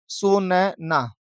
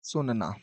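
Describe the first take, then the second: First: Drawn out. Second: सुनना said much softer, almost under the breath; soft repeat. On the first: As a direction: stretch सुनना out very slowly, syllable by syllable. Teacher drawing out the answer. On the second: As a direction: echo सुनना quietly to yourself. Teacher repeating the answer softly. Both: Shown as a demonstration.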